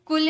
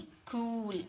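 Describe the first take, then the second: First: कुल with a short उ; कुल clipped short; the wrong short कुल; wrong cool. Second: कूल with a long ऊ; कूल stretched long; the correct long कूल; right cool. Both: Shown as a demonstration. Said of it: "कुल नहीं".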